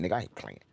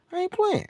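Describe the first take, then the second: First: Said in the usual way. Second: I ain't playing squeaked way up high; a silly high-pitched take; high falsetto. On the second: Shown as a demonstration. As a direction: flip into a mocking falsetto.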